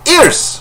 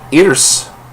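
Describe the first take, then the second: First: It is said excitedly, with strong inflection. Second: It is said flatly, without emphasis.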